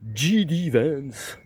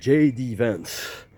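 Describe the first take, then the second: First: The letters are given French letter names. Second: The letters are given English letter names. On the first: The speaker calls it wrong. "je les entends dire euh, J D Vance ou J D Vance" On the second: The speaker calls it right. "Non, J D Vance, parce que J en anglais, ça se prononce J"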